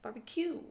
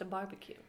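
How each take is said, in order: First: The stress is on the last syllable, cue. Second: The stress is on the first syllable, bar. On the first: It sounds refined. "I just like that he put the emphasis on the cue" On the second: It is an ordinary barbecue. "not just a barbecue"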